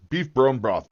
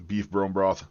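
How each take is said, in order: First: "Beef bone broth" punched higher, with overdone emphasis; over-emphasized syllables. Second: Said in the usual way. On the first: Real, not acted. Streamer riffing on his broth plans, "Beef bone broth" over-emphasized. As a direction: hit each word of "Beef bone broth" too hard, pitched up. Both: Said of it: "Bit much emphasis on the syllable".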